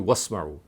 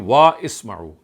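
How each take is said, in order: First: The two words are joined into one. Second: The two words are said separately. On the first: "when you read it by joining" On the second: "if you don't read it by this joint"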